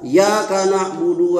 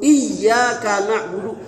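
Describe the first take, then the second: First: The y sound is short and single. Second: The y sound is held long and doubled. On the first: It addresses the sun, not God. The speaker calls it wrong. "imamnya baca salah ... ya-nya enggak tasdid" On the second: It addresses God. The speaker calls it right. "Anda yang bisa menyebut"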